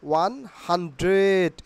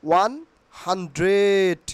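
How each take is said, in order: Both takes have the same delivery.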